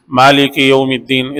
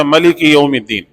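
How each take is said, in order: First: مالک said with a long first vowel, maa-lik, slow and recited; long-a Maalik reading. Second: ملک said with a short clipped first vowel, ma-lik; short-a Malik reading. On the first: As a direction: stretch the aa in مالک. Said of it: "سورہ فاتحہ میں آپ پڑھتے ہیں". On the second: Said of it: "اس میں ایک دوسری قرات ہے". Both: Shown as a demonstration.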